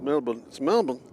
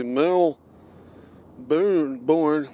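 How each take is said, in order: First: "Melbourne" with a reduced second syllable, like MEL-bun; "Melbourne" as MEL-b'n, no R; local pronunciation. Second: "Mel Boone, born" with a drawn-out, full second syllable; "Mel Boone, born" said as two weighty parts; common mispronunciation. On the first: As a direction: stress the start of "Melbourne" and swallow the ending. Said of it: "you pronounced it beautifully". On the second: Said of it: "Most people say". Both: Shown as a demonstration.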